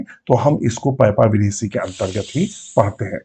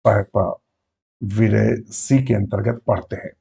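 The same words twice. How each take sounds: First: Said in the usual way. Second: Slow, deliberate repeat of the key term; slow repeat for emphasis. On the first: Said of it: "तो हम इसको किस में पढ़ते हैं?". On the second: Shown as a demonstration. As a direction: spell it out slowly so students note it. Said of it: "किसमें पढ़ते हैं?".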